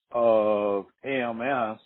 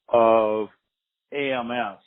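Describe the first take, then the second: No difference in how they are said.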